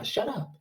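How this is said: The voice sounds weak and deflated. The speaker has lost confidence. "why do I sound so weak?"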